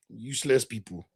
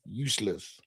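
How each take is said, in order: First: Said in the usual way. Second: Lower, much softer muttered repeat; quiet. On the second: Real, not acted. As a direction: mutter it under your breath in disgust.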